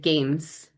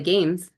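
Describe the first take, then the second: First: The final sound is a voiceless s. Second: The final sound is a voiced z. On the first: The speaker calls it wrong. "I'm really forcing turning off my voice in order to produce that" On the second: The speaker calls it right. "Z is my last sound when I'm saying that"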